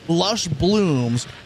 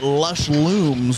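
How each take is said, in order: First: The second word begins with a B sound. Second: The second word begins with an L sound. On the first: The speaker calls it right. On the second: The speaker calls it wrong.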